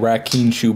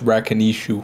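First: It has no vowel between 'kin' and 'shu'. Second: It has an extra 'i' between 'kin' and 'shu'. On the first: The speaker calls it wrong. "I've been saying Rakinshu" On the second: The speaker calls it right. "but it's Rakinishu"

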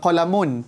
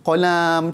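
First: The second syllable has a short vowel. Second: The second syllable has a lengthened vowel. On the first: The speaker calls it right. "dia tak tak ada tak, tak panjang kan" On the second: The speaker calls it wrong. "kalau dia baca tiba dia letak alif kat situ"

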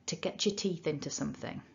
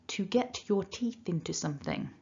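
First: The words are reduced, with 'get your' joined as 'getcha'. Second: Every word is said fully, with a separate t and 'your'. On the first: "using weak forms and using that ch" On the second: "I'm going to try and not go weak with anything here"

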